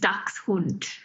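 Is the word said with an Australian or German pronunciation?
German. The word is said with a German pronunciation. "The German pronunciation is"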